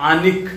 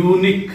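First: ಆನಿಕ್ said as "aa-nik"; ಆನಿಕ್, unique misread with an "aa" vowel; wrong pronunciation. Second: Unique starting with a "you" sound; "unique" with a y-glide and long oo; correct pronunciation. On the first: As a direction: open ಆನಿಕ್ on a long "aa", no y-glide. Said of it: "we are not telling it as". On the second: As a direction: say unique as "yoo-nik". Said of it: "ಯೂನಿಕ್ ಅಂತೀವಿ". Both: Shown as a demonstration.

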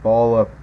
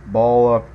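Both takes have the same delivery.

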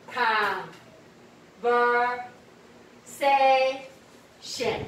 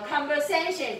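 First: "conversation" very slowly, each syllable held apart. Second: Said in the usual way. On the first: Shown as a demonstration. Teacher has students count the syllables, "conversation" said syllable by syllable. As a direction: break "conversation" into slow, separate syllables. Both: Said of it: "conversation几个音节".

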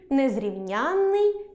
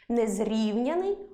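First: НЕЗРІВНЯННИЙ stressed late on the suffix ЯНН. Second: НЕЗРІВНЯНИЙ stressed on the root syllable РІВ, single н. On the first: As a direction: say Незрівнянний slowly, leaning on ЯНН with a long н. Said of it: "наголос падає на суфікс". (Незрівнянний з наголосом на суфіксі ЯНН) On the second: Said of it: "наголос на корені". (Незрівняний з наголосом на корені, на РІВ) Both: Shown as a demonstration.

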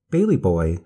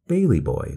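First: Louder call toward the woods. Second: Tragic cry. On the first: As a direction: call his name into the trees. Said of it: "she called". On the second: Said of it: "the grandmother cried in a tragic voice". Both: A narrator's reading.

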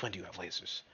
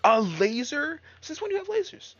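First: Unvoiced disbelieving whisper. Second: Much higher and louder incredulous cry; shocked shout. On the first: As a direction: mutter it to yourself in a whisper. Repeats the line whispered. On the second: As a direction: blurt it out in disbelief. Enemy fires lasers. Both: Real, not acted.

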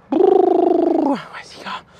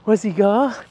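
First: High, very slow drawn-out tease; teasing sing-song. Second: Said in the usual way. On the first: Acted. Trainer teasing the dog during tug play, high drawn-out sing-song.

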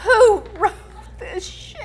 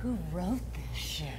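First: Hammed-up dramatic cry; soap opera shout. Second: Slow, much softer mock-dramatic delivery; hammed-up hushed disbelief; soap opera hush. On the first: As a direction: belt it out like a soap opera actress. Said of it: "do it with different inflections each time". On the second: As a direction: murmur it low like a stunned soap actress. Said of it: "I wanna hear the inflection on this one".

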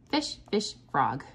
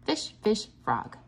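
The two takes are said the same way.

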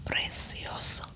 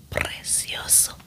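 No difference in how they are said.

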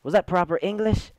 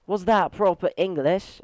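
First: Said in the usual way. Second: Put-on higher, playful British accent. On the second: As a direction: ask it in a mock British accent. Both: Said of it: "if I say that in a British accent".

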